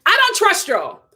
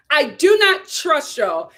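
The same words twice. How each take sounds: First: Said in the usual way. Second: Slow "I do not trust y'all" with "do" hit hard; emphatic "do not", drawn out; stress on DO. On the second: Shown as a demonstration. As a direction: lean on "do", each word spelled out slowly.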